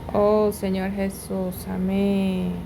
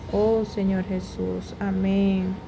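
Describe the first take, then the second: The two takes are said the same way.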